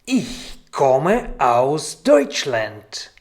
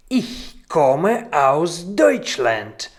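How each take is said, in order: Both takes have the same delivery.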